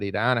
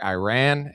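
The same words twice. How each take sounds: First: It is said in a cultured way. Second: It is said in a very American way. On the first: The speaker sounds cultured. "if you want to be cultured" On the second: The speaker sounds very American. "if you want to be very American"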